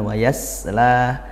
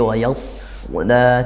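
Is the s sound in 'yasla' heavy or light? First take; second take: light; heavy. First: The s sound is light and thin. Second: The s sound is heavy and thick. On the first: The speaker calls it wrong. "bukan wa yasla" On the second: The speaker calls it right. "tapi wa yasla ditebalkan, pangkal lidah nah naik"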